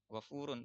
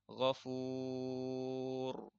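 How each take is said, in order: First: The word ends with a final n sound. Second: The word ends without the final n sound. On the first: The reading continues without stopping. "Kalau wasol dibaca ketika dia wasol" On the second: The reading stops at this word. "Tapi kalau wakof berhenti jadi ghafur"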